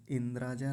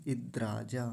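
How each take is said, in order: First: 'इंद्राजा' with n before d; mistaken nasal. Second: 'इद्राजा' as id-draa-jaa; no nasal. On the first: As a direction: say 'इंद्राजा' as in-draa-jaa. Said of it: "इंद्राजा नहीं है". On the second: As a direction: hold the d, no n, in 'इद्राजा'. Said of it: "इद्राजा ऐसा है". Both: Shown as a demonstration.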